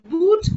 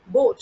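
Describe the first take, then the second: First: The vowel is a long 'oo' sound. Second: The vowel is a long 'oh' sound. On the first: The speaker calls it wrong. "not pronounced as boot" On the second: The speaker calls it right. "but is pronounced as boat"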